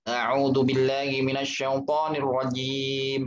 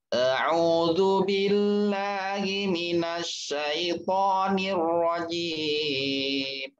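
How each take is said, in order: First: It is recited at a medium speed. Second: It is recited very slowly.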